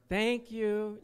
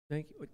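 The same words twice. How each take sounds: First: It is said loudly. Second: It is said quietly.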